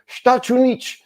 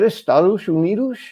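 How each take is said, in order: First: The words are crammed together into one short blur. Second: The words are said in full, every syllable clear. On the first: "I heard the announcer several times go" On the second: "Is that Estados Unidos?"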